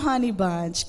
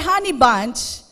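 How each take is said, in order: First: The tone is sweet and gentle. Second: The tone is tense and irritated. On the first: The talk starts on friendly terms. "umpisa maganda eh" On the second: The talk is turning into a quarrel. "Nag-iiba na yung tono"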